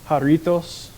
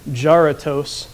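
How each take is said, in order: First: It is said with a Spanish pronunciation. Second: It is said with an English pronunciation. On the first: "That's that's how you say it if you're Spanish" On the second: "I guess you would say Jarritos if uh, you weren't"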